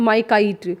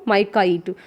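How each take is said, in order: No difference in how they are said.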